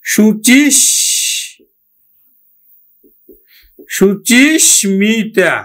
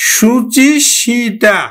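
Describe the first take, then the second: First: Slow শুচিস্মিতা with a sounded m, "shuchish-mita"; correct m pronunciation. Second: Slow শুচিসিতা with doubled sh and no m, "shuchish-shita"; rule-based mispronunciation. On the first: Teacher giving the real pronunciation, slow and with sounded m. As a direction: hold the sh of শুচিস্মিতা, then a clear mi. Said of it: "আসলে উচ্চারণ হবে কিন্তু". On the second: Teacher showing the form to avoid, slow rule-based mispronunciation. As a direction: draw out শুচিসিতা, leaving the m silent. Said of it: "এটা কিন্তু উচ্চারণ নয়". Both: Shown as a demonstration.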